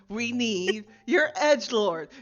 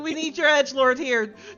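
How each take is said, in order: First: It is said more slowly. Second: It is said at normal speed.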